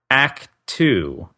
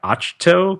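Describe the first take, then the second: First: The name is said as 'act two'. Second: The name is said as 'ach-to'. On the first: "they uh, pronounced it Act Two" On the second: "I have been pronouncing that Achto"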